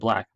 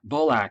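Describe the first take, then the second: First: No vowel comes between the b and l. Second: An extra vowel is inserted after the b.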